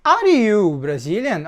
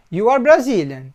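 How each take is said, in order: First: Slow question, Are you Brazilian, tune dropping at the end. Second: Falling statement, You are Brazilian. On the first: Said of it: "Agora, eu mudei o tom". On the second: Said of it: "Eu estou afirmando". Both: Shown as a demonstration.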